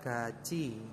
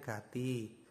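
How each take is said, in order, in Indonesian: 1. Konsonan tengahnya adalah bunyi ch. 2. Konsonan tengahnya adalah bunyi t biasa. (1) "ini dibacanya adalah gaci" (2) "kalau misalkan teman-teman belum mengenal ini kan bacanya gati"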